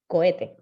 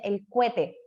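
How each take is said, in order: First: "Cohete" with o and e apart, ko-e-te; crisp, separate "Cohete"; correct cohete. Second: "cohete" as kwete, o glides to w; faulty cohete. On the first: Teacher giving the right form. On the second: Teacher demoing the common mistake. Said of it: "defectos que nosotros no decimos". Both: Shown as a demonstration.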